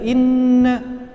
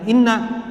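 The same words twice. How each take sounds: First: The nasal n sound is held long. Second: The nasal n sound is cut short. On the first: The speaker calls it right. "gunnah musyaddadah" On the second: The speaker calls it wrong. "kita kurang panjang dalam membaca innanya"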